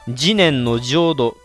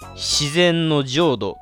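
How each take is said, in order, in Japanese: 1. 最初の語は jinen と発音します。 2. 最初の語は shizen と発音します。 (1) "本願寺派の中では慈念の浄土という言葉" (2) "間違いなく自然の浄土と読むと思います"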